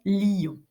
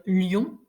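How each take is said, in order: First: LION in two syllables, li-yon; diérèse. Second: LION in one syllable, lyon; synérèse. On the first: Teacher contrasting two ways in poetry, split diérèse. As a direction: stretch LION into li-on. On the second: Teacher contrasting two ways in poetry, one-syllable synérèse. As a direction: say LION as one gliding beat. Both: Shown as a demonstration. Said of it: "pourquoi est-ce que je peux".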